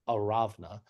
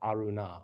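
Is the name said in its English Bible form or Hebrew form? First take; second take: Hebrew; English. First: The name is said in its Hebrew form. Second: The name is said in its English Bible form. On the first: "as you might also pronounce it from Hebrew" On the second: "which in your Bibles is probably Arunah"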